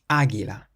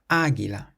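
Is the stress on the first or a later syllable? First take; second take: first; first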